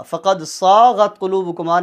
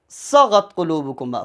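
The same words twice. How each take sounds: First: "صاغت" with the saa dragged out; louder, over-lengthened "صاغت"; wrong long vowel. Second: "صغت" with a short first a; short vowel. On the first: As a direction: stretch "صاغت" too far as a mistake. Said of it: "نہیں ہے". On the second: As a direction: recite "صغت قلوبکما" without stretching the sa. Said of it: "اس کو short پڑھنا ہے". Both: Shown as a demonstration.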